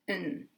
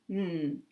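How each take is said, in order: First: The word has a very short central vowel. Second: The word is a bare n with no vowel. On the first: "This has a very short vowel, a short vowel made in the middle of the mouth" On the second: "And this is n"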